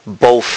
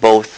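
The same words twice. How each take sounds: First: The final th is replaced by an f-like sound. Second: The final th sound is pronounced normally. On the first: The speaker calls it wrong. "he says both, both instead of" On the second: The speaker calls it right. "instead of both"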